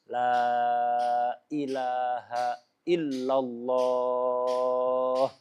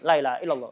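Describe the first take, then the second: First: 'Ilaha' begins with a clear glottal stop, vowels lengthened. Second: The glottal stop in 'ilaha' becomes a y sound. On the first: The speaker calls it right. "Yang mat dipanjangkan" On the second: The speaker calls it wrong. "Bukan zikir itu ya"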